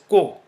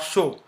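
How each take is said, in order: First: The syllable begins with a hard k sound. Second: The syllable begins with a soft sh sound. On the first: The speaker calls it right. "So it is pronounced as ko" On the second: The speaker calls it wrong. "not show"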